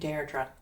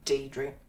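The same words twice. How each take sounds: First: The name has its original Irish pronunciation. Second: The name has the common local pronunciation. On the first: This is the name's proper original form. "my name is from the Irish, so you would pronounce my name Deirdre" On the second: This is how most people here say it. "most people just say Deirdre"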